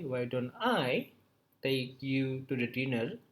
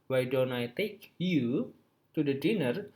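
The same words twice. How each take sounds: First: The stress falls on the word I. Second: The stress falls on the word you. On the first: The speaker rather than someone else should be the one inviting. "when I actually emphasize the word I" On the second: The invitation goes to this person rather than someone else. "when you stress the word you in this sentence"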